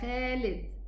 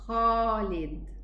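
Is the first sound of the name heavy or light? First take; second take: light; heavy. First: The first sound is light, not from deep. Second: The first sound is heavy, from deep. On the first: The speaker calls it wrong. "we as Egyptians, we would say Ya Khalid" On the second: The speaker calls it right. "So it should be Khalid"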